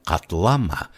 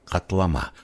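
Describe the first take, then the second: First: Хатлама with the stress moved to the middle, хатЛАма; stress on second syllable. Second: Хатлама with the stress on its third syllable, хатлаМА; stress on final syllable. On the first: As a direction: say хатлама stressing «ла», not the ending. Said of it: "при переносе ударения с третьего слога на второй". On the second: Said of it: "при переносе ударения с третьего". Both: Shown as a demonstration.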